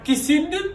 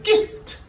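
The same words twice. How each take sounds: First: The ending is not a clear t sound. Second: The word ends in a clear t sound. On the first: The speaker calls it wrong. "C'est pas kissed" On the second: The speaker calls it right. "c'est kissed"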